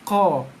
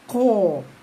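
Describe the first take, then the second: First: The vowel is said with relaxed, unrounded lips. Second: The vowel is said with rounded lips. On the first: The speaker calls it right. "pangkal lidah kita tekankan sikit, keluarkan bunyi qa" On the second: The speaker calls it wrong. "Ataupun ko, ko. Ha, bukan. Tak perlu boncongkan bibir"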